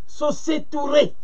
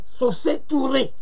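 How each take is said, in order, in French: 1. Le nom finit par un son 'tooray'. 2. Le nom finit par un son 'tooray'.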